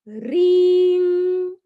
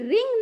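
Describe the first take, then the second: First: The vowel is drawn out long. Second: The vowel is said short. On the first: The speaker calls it right. "इसका उच्चारण लंबा होता है, दीर्घ उच्चारण उसका होता है" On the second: The speaker calls it wrong. "लेकिन ये रिंग नहीं है"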